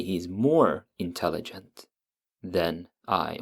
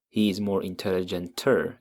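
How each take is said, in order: First: Said in the usual way. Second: Wrong form. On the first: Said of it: "You have to say". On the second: Shown as a demonstration. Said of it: "You can't say that".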